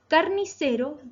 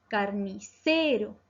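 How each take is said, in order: First: Said in the usual way. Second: "carnicero" slow, with a long stressed "ce"; teacher exaggerating the stressed "ce" of "carnicero"; stress on penultimate syllable. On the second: Shown as a demonstration. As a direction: stretch the "ce" in "carnicero". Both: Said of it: "se acentúan en la penúltima sílaba".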